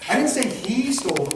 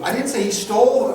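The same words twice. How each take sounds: First: The word 'he' carries the main stress. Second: The word 'stole' carries the main stress. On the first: Someone else stole it. "Well then who did steal it?" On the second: He took it some other way. "somebody borrowed it?"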